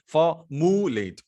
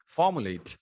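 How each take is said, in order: First: formulate slowed down, with the stress pulled onto a later syllable; wrong stress. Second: formulate with the stress on the first syllable, even and falling; correct stress. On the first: Teacher shows a wrong stress on formulate. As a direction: drag out formulate with the stress misplaced. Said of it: "ऐसा नहीं बोल सकते". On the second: Teacher models the right stress on formulate. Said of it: "formulate बोलेंगे आप". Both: Shown as a demonstration.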